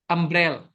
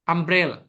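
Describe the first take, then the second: No difference in how they are said.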